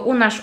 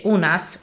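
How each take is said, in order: First: The word ends in a sh sound. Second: The word ends in a plain s sound. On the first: This is the local dialect form. "tylko u nasz" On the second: This is the standard form, not used locally. "Nie mówi się u nas"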